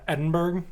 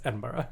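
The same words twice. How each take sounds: First: Edinburgh ending in a hard "burg"; American pronunciation. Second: Edinburgh ending in a soft "burra", low and quiet; local pronunciation. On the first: Friend shows how Americans say the city, American pronunciation. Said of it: "like Americans say". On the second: Friend agrees on the correct city name, local pronunciation. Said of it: "but it's like, no". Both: Shown as a demonstration.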